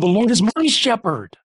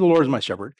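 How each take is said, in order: First: The word 'my' is strongly emphasized. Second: The word 'my' is said without emphasis.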